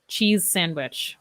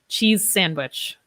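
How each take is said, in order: First: The z and s are linked together. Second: The z and s are linked together.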